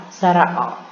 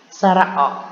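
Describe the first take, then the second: No difference in how they are said.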